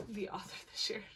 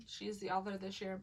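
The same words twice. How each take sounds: First: Unvoiced whispered aside. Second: Said in the usual way. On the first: Real, not acted. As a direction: whisper it like a secret.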